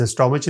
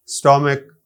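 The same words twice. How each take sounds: First: اسٹامچ with a "ch" sound at the end; wrong pronunciation. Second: اسٹامک with a hard "k" at the end; correct pronunciation. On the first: Teacher showing learners what not to say, mispronounced اسٹامچ with final "ch". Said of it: "اسے اسٹامچ نہیں کہہ سکتے". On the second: Teacher giving learners the right word, اسٹامک with final "k". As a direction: end اسٹامک on a clear "k", not "ch". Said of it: "کا". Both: Shown as a demonstration.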